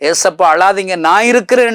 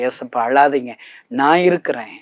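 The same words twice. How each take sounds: First: Impassioned cry. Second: Said in the usual way. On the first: Acted. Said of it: "இந்த கணேசனை போன்று". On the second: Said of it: "என்று சொல்லி என் வாழ்க்கையை அர்ப்பணிச்சு".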